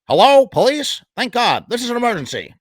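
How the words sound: It is said in a put-on character voice.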